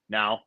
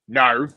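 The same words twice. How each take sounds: First: It is said in a normal speaking voice. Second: It is said in a put-on character voice.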